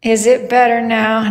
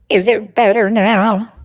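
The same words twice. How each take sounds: First: Said in the usual way. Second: Steadily wobbling vibrato on every word; vibrato effect. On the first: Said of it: "How do I fix the voice?". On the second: Real, not acted. Streamer testing the voice effect, wobbly vibrato. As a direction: speak through a warbling voice effect. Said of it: "than your vibrato".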